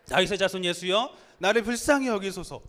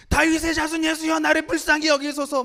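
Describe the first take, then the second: First: Said in the usual way. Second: Loud, high-pitched cry for help; sudden shout. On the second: Acted. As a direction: shout a plea over a crowd. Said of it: "갑자기 대뜸 소리 지릅니다".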